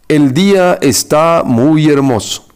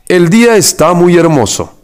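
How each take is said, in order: First: Each word is said separately with pauses. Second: The whole sentence flows without pauses.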